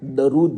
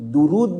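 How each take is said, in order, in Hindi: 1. पहला स्वर 'a' की ध्वनि है। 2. पहला स्वर 'u' की ध्वनि है। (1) "दरूद नहीं, दाल पर जबर नहीं" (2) "दुरूद बोलने का"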